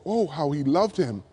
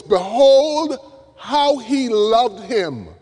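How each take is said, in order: First: Oh, how he loved him read softer and lower, almost to oneself; hushed tender reading. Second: Behold rings out high and loud, then slows right down on how he loved him; awed exclamation. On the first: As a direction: let the wonder settle quietly. Verse re-read softly. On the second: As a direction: marvel out loud at a great love. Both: Acted.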